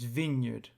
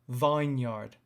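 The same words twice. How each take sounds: First: The first part sounds different from vine. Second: The first part sounds like the word vine. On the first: The speaker calls it right. "it's vineyard" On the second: The speaker calls it wrong. "It's not vineyard"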